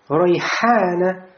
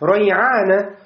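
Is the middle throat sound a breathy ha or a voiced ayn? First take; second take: ha; ayn. First: The middle sound is a voiceless breathy ha. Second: The middle sound is a voiced throat ayn. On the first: "слово «ройхана»" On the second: "заменяем на букву айн"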